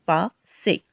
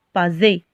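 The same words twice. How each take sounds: First: "passer" with a hissed S, "pa-sé"; correct S sound. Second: "passer" said with a buzzing Z, "pazé"; misread with Z. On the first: Teacher reading the word with double S, "passer" with a clear S sound. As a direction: say "passer" in two parts with a voiceless S. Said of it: "deux S pour obtenir le son S". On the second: Teacher showing learners how one S would read, "passer" with a Z sound. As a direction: say "passer" with a voiced Z in place of the S. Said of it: "s'il y en a un seul S, comme ça". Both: Shown as a demonstration.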